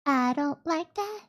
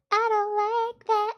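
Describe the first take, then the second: First: Said in the usual way. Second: Higher, sugary little cutesy voice; cutesy baby talk. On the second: Shown as a demonstration. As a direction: coo it like a small child. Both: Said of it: "Only cutesy voice".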